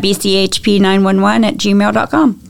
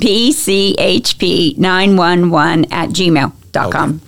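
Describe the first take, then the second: First: It is said at a quicker pace. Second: It is said at a slower pace.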